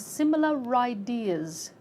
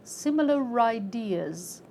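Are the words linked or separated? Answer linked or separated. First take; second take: linked; linked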